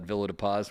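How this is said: It is said with an anglicized English pronunciation.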